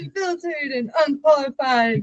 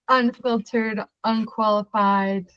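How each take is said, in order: First: It is said with lively, enthusiastic energy. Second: It is said in a plain, low-energy way.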